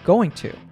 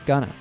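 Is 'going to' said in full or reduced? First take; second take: full; reduced. First: Going to is said in full. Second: Going to is reduced to gonna.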